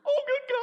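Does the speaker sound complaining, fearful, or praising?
fearful. It sounds scared and anxious. The speaker is frightened by a problem. The speaker calls it wrong. "If you're a worrier, it's"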